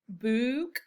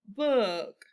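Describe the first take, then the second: First: The vowel is a long oo sound. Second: The vowel is a short uh sound. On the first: The speaker calls it wrong. "That doesn't sound right" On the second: The speaker calls it right. "let's try the uh sound"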